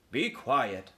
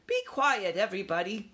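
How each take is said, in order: First: Stern uncle, falling tone; uncle's order. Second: High-pitched command; young mouse's order. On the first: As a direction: order the youngsters to hush. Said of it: "ordered Uncle Lester". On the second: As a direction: take charge in a small, high voice. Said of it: "Ralph ordered". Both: A narrator's reading.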